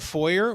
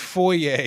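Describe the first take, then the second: First: It is said with a North American pronunciation. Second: It is said with a non-American pronunciation. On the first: The speaker calls it wrong. "they'll say, "And I'll meet you in the foyer," which also, by the way, makes me want to lose my mind" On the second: The speaker calls it right. "It's foyer, you braying idiot"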